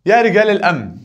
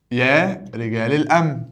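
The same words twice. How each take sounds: First: يا رجال الأمن called out high and loud, stressing يا; loud vocative call. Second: يا رجال الأمن said slowly and level, each word spaced out; slow it down so students hear each word of يا رجال الأمن; slow repeat. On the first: Teacher calls out the vocative to the class, loud and high. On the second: Teacher repeats the vocative slowly for students to parse. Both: Shown as a demonstration. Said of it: "ده منادى".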